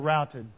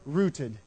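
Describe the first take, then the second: First: The vowel sounds like the one in 'out'. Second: The vowel sounds like the one in 'root'. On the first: The speaker calls it right. "So they were routed" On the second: The speaker calls it wrong. "You don't like rooted?"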